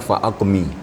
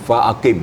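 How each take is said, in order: First: The vowel comes after the m. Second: The vowel comes before the m. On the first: The speaker calls it wrong. "karena barisnya kurang tepat meletakkan barisnya" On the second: The speaker calls it right. "yang sebenarnya adalah fa'aqim"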